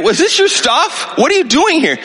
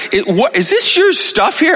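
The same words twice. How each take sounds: First: Angry demand. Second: Higher, sharp confrontation; higher retold demand at the door; angry demand. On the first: Retold or imitated. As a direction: demand answers from the woman in his house. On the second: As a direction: challenge the intruders in his house. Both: Confronting strangers in his house.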